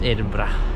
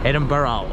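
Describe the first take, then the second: First: The word has a Scottish-style pronunciation. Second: The word has an American-style pronunciation. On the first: The speaker calls it right. "it's just Edinburgh" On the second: The speaker calls it wrong. "a lot of American people always pronounce it Edinburgh"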